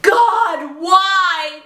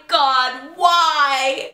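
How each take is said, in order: First: Hammed-up anguished shout; mock kids screaming. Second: Said in the usual way. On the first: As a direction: yell it up at God in despair. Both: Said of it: "There were kids screaming".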